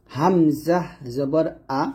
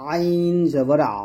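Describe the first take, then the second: First: "হামজা জবর আ" spelled slowly, a clean open glottal আ; hamza from throat's start. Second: "আইন জবর আ" drawn out, আ squeezed in mid-throat; ayn from mid-throat. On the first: Teacher showing learners the hamza sound, "হামজা জবর আ" slow from throat's start. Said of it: "গলার শুরু থেকে". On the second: Teacher contrasting ayn with hamza, "আইন জবর আ" slow and pressed mid-throat. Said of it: "আইনটা আসবে গলার মাঝখান থেকে". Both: Shown as a demonstration.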